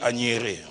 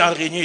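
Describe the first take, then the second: First: The middle consonants are swapped around. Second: The consonants come in their usual order. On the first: The speaker calls it wrong. "il n'arrivait pas à dire araignée" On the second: The speaker calls it right. "dis araignée"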